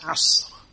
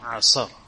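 First: No vowel is heard between the final consonants. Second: A vowel is heard between the final consonants. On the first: The speaker calls it right. "you have to have the sukoon on the middle letter" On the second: The speaker calls it wrong. "not asr"

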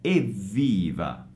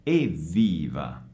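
Both takes have the same delivery.

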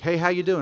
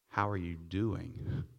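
First: It is a quick, casual, offhand greeting. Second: It is a slow, sincere, caring question.

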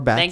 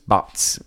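First: The vowel sounds like the one in 'cats'. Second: The vowel sounds like the one in 'dots'. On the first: "or Bats" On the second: "I would have pronounced that Bots"

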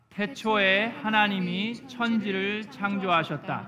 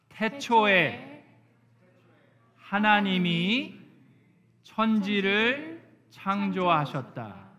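First: It is read aloud at normal speed. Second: It is read aloud slowly.

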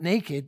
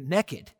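First: It has the standard long vowel, like 'nay-kid'. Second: It has a short Southern vowel, like 'nekkid'. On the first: Being unclothed, as when one is born. "They're not naked" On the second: Doing something one ought not be doing. "They'd say down in Georgia where I'm from"

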